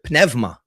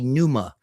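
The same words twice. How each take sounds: First: The word has a non-English pronunciation. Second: The word has an English-style pronunciation.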